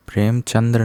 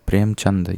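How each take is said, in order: First: प्रेमचंद्र with final 'dra'; wrong form. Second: प्रेमचंद ending in 'chand', no r; proper प्रेमचंद without the final r; correct form. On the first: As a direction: add the r at the end of प्रेमचंद्र. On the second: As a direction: stop प्रेमचंद on a plain d. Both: Shown as a demonstration. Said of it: "प्रेमचंद्र नहीं होता".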